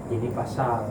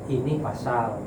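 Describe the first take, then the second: No difference in how they are said.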